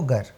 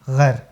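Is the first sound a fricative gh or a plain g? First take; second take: plain g; fricative. First: The word begins with a plain hard g sound. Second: The word begins with a throaty fricative gh sound. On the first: It means if. The speaker calls it right. "यहाँ ग के नीचे नुख्ता नहीं है" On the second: It means an unchaste woman. The speaker calls it wrong. "अगर आपने जोश में यहाँ नुख्ता लगा दिया"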